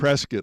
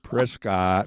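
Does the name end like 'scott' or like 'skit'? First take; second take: skit; scott. First: The second syllable sounds like 'skit'. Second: The second syllable is a full 'scott'. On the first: The speaker calls it right. "like biscuit, is what I learned" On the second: The speaker calls it wrong. "I had to get corrected"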